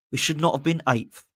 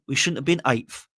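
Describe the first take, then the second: First: "not" split off and weighted; stress on not. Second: Said in the usual way. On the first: Shown as a demonstration. Vlogger correcting himself, with weight on "not". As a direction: pull "should not" apart and land on "not".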